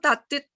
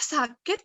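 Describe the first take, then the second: First: The word starts with a t sound. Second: The word starts with an s sound. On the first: A small child with a speech lisp says it. The speaker calls it wrong. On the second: An adult repeats it properly to the child. The speaker calls it right. "dengan kata yang benar"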